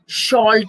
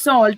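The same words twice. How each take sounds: First: The word begins with an sh sound. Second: The word begins with an s sound. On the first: The speaker calls it wrong. "we don't say sh- salt" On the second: The speaker calls it right. "It's salt"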